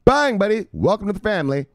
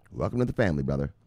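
First: High, loud "Welcome to the family"; hype welcome. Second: Said in the usual way. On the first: Acted. Streamer greeting a new viewer, hyped and high. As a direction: throw a big hyped welcome at the newcomer.

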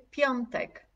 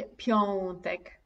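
First: "piątek" with ą read as o plus n, pjon-tek; "piątek" with a distinct on sound before t; correct pronunciation. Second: "piątek" with a bare o and no n, like pjotek; "piątek" with the ą flattened to a plain o; wrong pronunciation. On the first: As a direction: say "piątek" clearly as pjontek. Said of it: "O N, piątek". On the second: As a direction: say "piątek" as pjo-tek, dropping the nasal. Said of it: "Ja nie mówię piątek". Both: Shown as a demonstration.

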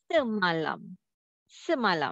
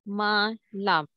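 First: Semalam joined up as one smooth word; read as whole word. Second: Semalam split into se, ma, lam with gaps; syllable by syllable. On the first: Teacher showing the last step, semalam read as one word. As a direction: blend se, ma and lam into semalam without gaps. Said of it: "read the words". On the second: Teacher breaking down the word for students, semalam in separate syllables. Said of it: "Se ma, and the next syllable, lam". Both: Shown as a demonstration.

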